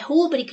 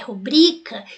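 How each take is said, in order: First: The stress is on the first syllable. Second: The stress is on the second syllable. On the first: The speaker calls it wrong. "a forma não é rúbrica" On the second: The speaker calls it right. "é rubrica"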